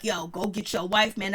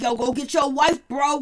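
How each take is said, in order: First: Said in the usual way. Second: Loud, pushy "go get your wife" call; urging friend. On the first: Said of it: "real dude moment when he was like". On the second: Retold or imitated. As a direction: hype up a buddy to go after his wife. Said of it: "I never heard Zell sound so real".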